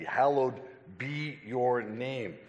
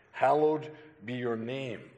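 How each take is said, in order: First: "Hallowed" stretched and stressed, the whole line slowed like a chant; slow emphatic Hallowed. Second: Said in the usual way. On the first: Shown as a demonstration. Preacher showing the chant-like emphasis, slow and stressed. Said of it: "It's that kind of emphasis". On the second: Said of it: "To hallow means to hold in reverence".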